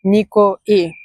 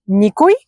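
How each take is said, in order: First: „никои“ with the pitch falling at the end. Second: „никой“ with the pitch rising at the end. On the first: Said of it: "the intonation goes down". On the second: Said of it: "The intonation here is very crucial". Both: Shown as a demonstration.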